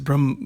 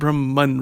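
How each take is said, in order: First: The word ends without an n sound. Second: The word ends with an n sound. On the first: The speaker calls it right. "it is Brahm" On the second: The speaker calls it wrong. "it has been mispronounced by saying Brahman. It's not Brahman really"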